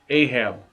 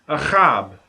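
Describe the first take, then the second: First: The middle consonant is a plain, soft h. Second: The middle consonant is a rough kh from the throat. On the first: The speaker calls it wrong. "Ahab is not Ahab" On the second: The speaker calls it right. "Ahab is actually Achab"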